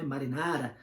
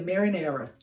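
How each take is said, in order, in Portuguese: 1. É dita com pronúncia italiana. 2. É dita com pronúncia inglesa. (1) "é uma palavra em italiano" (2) "em inglês a gente pronuncia"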